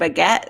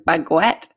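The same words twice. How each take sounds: First: It is said without a 'u' sound after the g. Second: It is said with a 'u' sound after the g.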